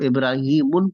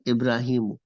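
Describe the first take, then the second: First: The word ends with an added -un sound. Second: The word ends without an added -un sound. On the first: The speaker calls it wrong. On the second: The speaker calls it right.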